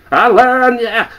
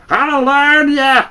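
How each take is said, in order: First: High, loud squawking cackle; a mocking parrot screeching the threat; cackling bird. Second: High, slow, drawn-out squawk with the word "learn" stretched; the bird repeating the threat, even slower; slow cackling bird. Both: A narrator's reading.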